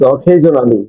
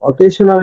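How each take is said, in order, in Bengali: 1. মাঝের ব্যঞ্জনটি একটি গুনগুনে 'zh' ধ্বনি। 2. মাঝের ব্যঞ্জনটি একটি হিসিং 'sh' ধ্বনি। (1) "কিন্তু অকেজনালি। সিঙ্গেল এস হলে বর্গীয় জয়ের মতো উচ্চারণ হয়" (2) "অকেশনালি না"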